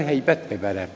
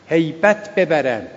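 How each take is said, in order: First: Said in the usual way. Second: هیبت ببرم repeated slowly, with weight on هیبت; slow emphatic repeat. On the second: Shown as a demonstration. Preacher repeats the plea to young listeners, slow and stressed. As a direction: lean on هیبت and slow the words down.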